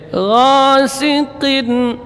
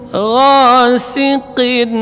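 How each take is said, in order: No difference in how they are said.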